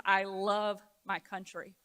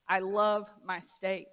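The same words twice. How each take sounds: First: Said in the usual way. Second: "I love my state" slowed, with "love" leaned on; each word spaced for weight; slow emphatic. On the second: Real, not acted. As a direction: draw out "love" slowly and firmly. Speech contrast, country then state.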